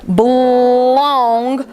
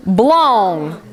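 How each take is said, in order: First: Blong held long and drawn out; stretched word. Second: Said in the usual way. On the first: Shown as a demonstration. Teacher stretching a nonsense word. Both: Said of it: "we're gonna stretch these words".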